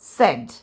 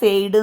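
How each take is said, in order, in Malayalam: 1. ഈ സ്വരം ചെറുതാണ്, 'bed'-യിലെ സ്വരം പോലെ. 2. ഈ സ്വരം 'say'-യിലെ സ്വരം പോലെ ഒഴുകുന്നു. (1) "ഇറ്റ്സ് സെഡ്" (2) "സെയ്ഡ് എന്നൊന്നുമല്ല"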